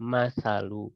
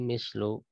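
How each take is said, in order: First: First vowel is a, another a after the s. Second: First vowel is i, no vowel after the s. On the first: "dengan memfathahkan keduanya" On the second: "mimnya kasro, sa-nya sukun"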